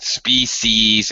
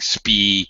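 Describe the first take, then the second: First: The word ends with an s sound. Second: The word ends without an s sound. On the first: The speaker calls it right. "you always have to pronounce the s on the end" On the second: The speaker calls it wrong. "another common mistake is to say like spee as if this is a plural"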